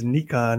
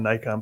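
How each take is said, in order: First: It is said in the non-American way. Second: It is said in the usual American way. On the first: The speaker calls it right. "It is Nikon" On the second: The speaker calls it wrong. "and not Nikon"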